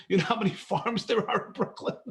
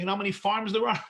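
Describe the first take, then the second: First: Asked again through a real laugh. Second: Said in the usual way. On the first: Real, not acted. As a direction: laugh at the absurd idea of Brooklyn farms. Repeats question while laughing.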